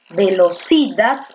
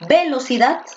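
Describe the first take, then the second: First: The stress is on the third syllable. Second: The stress is on the first syllable.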